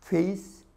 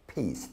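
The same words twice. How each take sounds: First: 페이스 as English face, pitched up; labiodental F. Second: 페이스 as pace, low and falling; bilabial P. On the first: Teacher contrasting face and pace, 페이스 with an F. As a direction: say 페이스 with teeth on lip, like face. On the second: Teacher contrasting face and pace, 페이스 with a P. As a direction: pop 페이스 with both lips, like pace. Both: Shown as a demonstration. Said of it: "다른 발음이죠".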